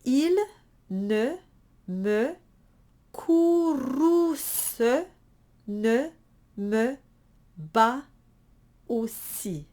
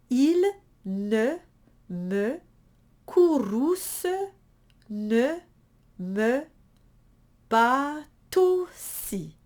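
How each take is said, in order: First: Il ne me courrouce ne me bat aussi split word by word, no liaison; each word separate, bat and aussi not tied. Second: Bat aussi linked as batousi, the T carried over; with liaison. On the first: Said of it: "one time very separate". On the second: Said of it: "I will tie them". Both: Shown as a demonstration.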